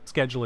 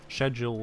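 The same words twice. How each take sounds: First: The word is said the American way. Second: The word is said the British way. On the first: "schedule is the Americanized" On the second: "Schedule is the British"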